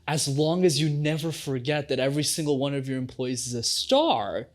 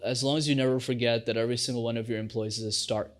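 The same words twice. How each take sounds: First: The pitch is high and varies widely. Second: The pitch is low and barely varies. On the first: The speaker cares about people. The speaker calls it right. "But instead, if I say" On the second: The speaker does not care about people. The speaker calls it wrong. "with a low vocal tone variation"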